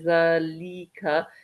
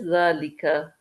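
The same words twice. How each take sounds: First: The middle vowel is stretched out very long. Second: The middle vowel is only moderately long. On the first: The speaker calls it wrong. "you don't want to kind of stretch it out too long. Don't say" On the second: The speaker calls it right. "It's just"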